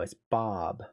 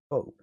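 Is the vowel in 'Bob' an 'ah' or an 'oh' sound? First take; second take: ah; oh. First: The vowel sounds like an open 'ah'. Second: The vowel sounds like a rounded 'oh'. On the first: The speaker calls it right. "No, it's Bob, Ba" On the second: The speaker calls it wrong. "you wrote it out based on the way it's spelled, it should be Bob"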